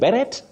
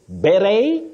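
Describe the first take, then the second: First: The final T sound is pronounced. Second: The final T sound is silent. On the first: The speaker calls it wrong. "avoid saying beret" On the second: The speaker calls it right. "The two are acceptable"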